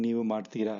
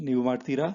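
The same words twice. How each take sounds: First: ನೀವು ಮಾಡ್ತೀರಾ said as a flat statement, falling at the end; ನೀವು ಮಾಡ್ತೀರಾ with a level, settled statement tune; ನೀವು ಮಾಡ್ತೀರಾ as a plain telling, no question lift. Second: ನೀವು ಮಾಡ್ತೀರಾ? with a rising question tune on ಮಾಡ್ತೀರಾ; ನೀವು ಮಾಡ್ತೀರಾ? asked, pitch climbing on the last syllable. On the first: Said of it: "as a statement". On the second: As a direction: lift ಮಾಡ್ತೀರಾ? up at the end to ask. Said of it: "they will just say as a question". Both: Shown as a demonstration.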